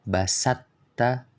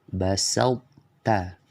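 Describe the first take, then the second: First: The emphatic sound merges fully, leaving no trace. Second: The emphatic quality stays partly on the t. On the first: The speaker calls it wrong. "cara bacanya yang salah" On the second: The speaker calls it right. "yang benar bacanya"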